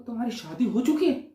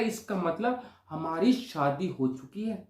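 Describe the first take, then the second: First: Quick, disbelieving question; incredulous echo. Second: Slow, deliberate schoolboy conviction; solemn announcement. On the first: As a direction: throw it back as an astonished question. Friend echoes it as a question. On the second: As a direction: announce it slowly as settled fact. Boy solemnly announces imagined marriage. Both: Retold or imitated.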